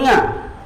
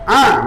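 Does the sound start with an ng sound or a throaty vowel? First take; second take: ng; throaty vowel. First: It starts with a nasal ng sound. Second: It starts with a throaty vowel sound. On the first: The speaker calls it wrong. "bukan nga" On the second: The speaker calls it right. "ah bukan nga"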